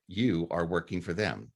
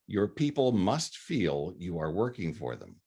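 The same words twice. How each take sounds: First: "You" pushed out as the key word, the rest falling away; stress on YOU. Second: Said in the usual way. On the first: Shown as a demonstration. Lecturer stressing who serves whom in the quote, "You" emphasized. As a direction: lean hard on "You", then let "are working for them" drop. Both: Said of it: "Emphasis on the wrong syllable".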